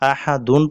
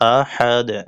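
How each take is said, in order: First: The word ends with an added -un ending. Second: The word ends on a bare final consonant. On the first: The reading continues as if not stopping. The speaker calls it wrong. "আহাদুন পড়া যাবে না" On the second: The reading stops at the end of the verse. The speaker calls it right. "ওয়াকফের সময় আরদি সাকিন বা মনে মনে যজম ধরিয়া পড়িতে হবে"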